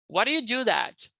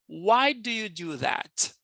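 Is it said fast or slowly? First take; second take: fast; slowly. First: It is said fast. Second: It is said slowly.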